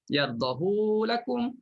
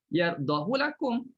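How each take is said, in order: First: The vowel after the h is lengthened. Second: The vowel after the h is short. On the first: This follows another reading tradition. "Ada qiraat lain yang baca dengan silah" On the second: This follows the Hafs transmission. "dibaca tanpa silah"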